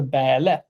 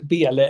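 First: Bäle with an open northern Swedish ä; Norrland dialect. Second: Said in the usual way. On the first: Shown as a demonstration. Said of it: "Du hittade din inre dialekt". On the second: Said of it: "det är något är Bäle".

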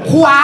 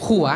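First: ขวา with a clear kw glide and long aa; standard pronunciation. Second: ขัว with a ua diphthong instead of waa; Korat mispronunciation. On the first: Comic contrasting the word for right, standard pronunciation. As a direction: punch out ขวา correctly. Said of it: "คำว่าขวา พูดไม่ได้อีก พูดเป็นขัว". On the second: Comic showing how he said right, Korat mispronunciation. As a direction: let ขวา slip into ขัว. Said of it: "พูดเป็นขัว". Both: Shown as a demonstration.

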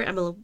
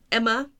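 First: "Emma" fumbled with a stray sound on the end; mispronounced name. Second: Said in the usual way. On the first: Real, not acted. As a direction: trip over the ending of "Emma". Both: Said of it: "I can't pronounce Emma either today".

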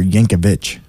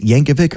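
First: Yankovic, last syllable like "vitch"; Yankovic ending in "vitch". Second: Yankovic, last syllable like "vick"; Yankovic ending in "vik". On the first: Host offering co-host the other option, Yankovic ending in ch. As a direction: say Yankovic with a final ch sound. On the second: Host asking co-host about a surname, Yankovic ending in a k. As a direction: say Yankovic with a hard k at the end. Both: Shown as a demonstration. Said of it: "Is it Yankovic or Yankovic?".

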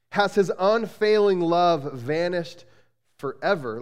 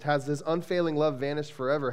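First: Slow, pointed, bitter question; sarcastic. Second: Said in the usual way. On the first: Acted. Pastor reads the psalm's question to his church, sarcastic. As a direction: drag it out, doubting the promise. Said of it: "you can almost hear the sarcasm". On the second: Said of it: "repeats the verse".

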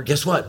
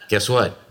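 First: Higher, eager teasing question; growing excitement. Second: Said in the usual way. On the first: Retold or imitated. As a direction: tease the child with mounting excitement. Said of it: "couldn't stand it any longer". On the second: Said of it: "Excitement began to grow".

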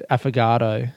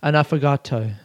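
First: Affogato in a plain, anglicised way; wrong affogato demo. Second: Affogato said correctly but deadpan; straight-faced affogato. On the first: Podcaster showing listeners what to avoid, affogato said plainly. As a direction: say affogato casually, with no flourish. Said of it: "without saying it like affogato". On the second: Podcaster attempting the correct affogato, straight-faced and restrained. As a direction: say affogato properly, keeping a straight face. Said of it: "Try and say it with a straight face". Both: Shown as a demonstration.

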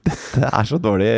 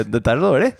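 First: Said in the usual way. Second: Dårlig pushed higher and louder, rising; dårlig stressed. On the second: Shown as a demonstration. Repeating the verdict, dårlig higher and louder. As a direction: lean on dårlig with a rise.

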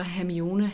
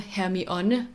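First: Said in the usual way. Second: "Hermione" said slowly as Krum mangles it; Krum's mispronunciation. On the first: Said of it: "hvad er det, han kalder". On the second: Shown as a demonstration. Host quotes how Krum says her name, mispronounced. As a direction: say "Hermione" drawn out, in Krum's Danish-translation version. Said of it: "han kalder Hermione? Hermione i den danske oversættelse".

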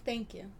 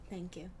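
First: Sarcastic. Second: Sarcastic, softer. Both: Acted. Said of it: "Being sarcastic".

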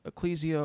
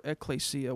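First: Ecclesia in the first of two variants; first pronunciation option. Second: Ecclesia in the second of two variants; alternative pronunciation. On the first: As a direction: offer one way of saying ecclesia. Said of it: "help me with the pronunciation of this word". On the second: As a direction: offer another way of saying ecclesia. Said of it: "What's the correct pronunciation?". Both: Shown as a demonstration.

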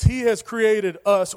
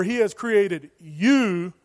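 First: Slow reading landing on "us"; stress on "us". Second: Slow, with "you" stretched out; stress on "you". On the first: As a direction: read it slowly and set down "us" clearly. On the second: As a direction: lean on "you" and hold it, swapping it in. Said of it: "You replace "we" with "you". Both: Shown as a demonstration.

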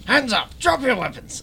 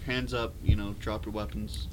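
First: High, loud soldier order; commanding military voice. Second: Commanding military voice. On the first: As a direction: bark it like a soldier. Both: Acted. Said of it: "commanding military voice".

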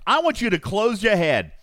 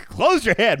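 First: Said in the usual way. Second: Laughing. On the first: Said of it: "he just said". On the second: Real, not acted. Laughing at the slip.

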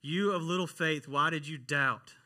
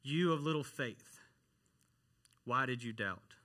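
First: Emphatic rebuke. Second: Understated, disappointed reproach with a pause midway; almost disappointed. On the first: Preacher repeats Jesus' rebuke to the congregation, emphatically. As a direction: drive the rebuke home, slowing at the end. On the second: Jesus to Peter after catching him, mildly disappointed. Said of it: "a tone of almost disappointment". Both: Retold or imitated.

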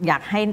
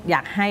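Both takes have the same delivery.

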